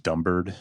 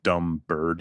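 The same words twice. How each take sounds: First: The two words run together as one word. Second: The two words are said separately. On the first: The phrase is treated as a single word. The speaker calls it wrong. "he says dumb bird. Like, it's one word" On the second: A woman is being called a bird. The speaker calls it right. "instead of saying, like"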